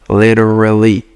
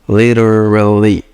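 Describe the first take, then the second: No difference in how they are said.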